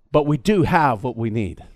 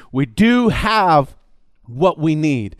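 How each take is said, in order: First: Said in the usual way. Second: Very slow, stress on do; slow, weighty do; emphatic do. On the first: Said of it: "first take". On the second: Shown as a demonstration. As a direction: press the word do hard. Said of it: "repeated slowly".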